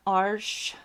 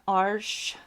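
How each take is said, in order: First: The name is pronounced the French way. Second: The name is pronounced the French way.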